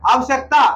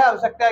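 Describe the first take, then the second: First: "आवश्यकता" squeezed to aav-sak-taa; wrong pronunciation. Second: "आवश्यकता" as aa-va-shyak-taa, every syllable sounded; correct pronunciation. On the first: Teacher shows the error in "आवश्यकता", run together as aavsakta. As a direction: drop the middle vowel of "आवश्यकता". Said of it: "इसकी त्रुटि है ना". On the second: Teacher shows the right "आवश्यकता", full middle vowel. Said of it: "ये सही है". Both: Shown as a demonstration.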